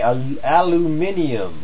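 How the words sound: The word has five syllables, ending in -nium. "as some of my friends over there in Europe would say"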